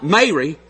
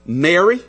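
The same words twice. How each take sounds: First: "Mary" with a long "may" first syllable; contrasting "Mary". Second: "merry" with a short open e, as in "berry"; careful "merry". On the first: Preacher shows the wrong word to avoid, "Mary" said "May-ree". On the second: Preacher reads the verse's word to the congregation, careful "merry". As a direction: say "merry" clearly, short first vowel. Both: Shown as a demonstration. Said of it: "Notice it's not Mary".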